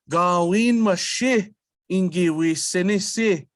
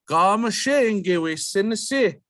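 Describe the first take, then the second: First: The opening word is said in full before mashi. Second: The opening word is shortened and runs into mashi. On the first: "instead of saying" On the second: "we can just leave out gawin and we flow right into mashi"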